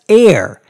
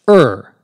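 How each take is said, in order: First: The vowel sounds like the word air. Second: The vowel sounds like the word fur. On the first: "now more commonly as air, as though it were spelled A I R" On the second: "In British English, however, it is always pronounced er"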